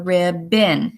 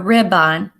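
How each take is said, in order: First: The second syllable is quick and reduced. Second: The second syllable is said full, like 'on'. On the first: The speaker calls it right. "We call it a ribbon" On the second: The speaker calls it wrong. "Now we don't call it a ribbon"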